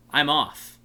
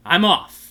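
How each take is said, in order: First: Said in the usual way. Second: Louder, grand exit line; more dramatic. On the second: Shown as a demonstration. The Centaurian takes his leave with a louder dramatic exit line. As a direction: deliver it with a big dramatic flourish. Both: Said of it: "I should have said that more dramatic".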